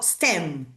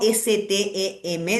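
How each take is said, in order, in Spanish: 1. Se dice como una sola palabra. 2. Se deletrea letra por letra. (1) "digo STEM. Lo leo como si fuera una palabra" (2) "no digo S-T-E-M"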